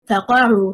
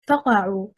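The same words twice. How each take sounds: First: The stress is on the second syllable. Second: The stress is on the first syllable. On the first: It means then fall down. The speaker calls it right. "شسر حركة القاف" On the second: It means pop or crack. The speaker calls it wrong. "stressing on the first حركة, حركة الفاء"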